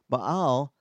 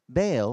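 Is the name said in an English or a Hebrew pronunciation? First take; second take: Hebrew; English. First: The name is said with a Hebrew pronunciation. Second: The name is said with an English pronunciation.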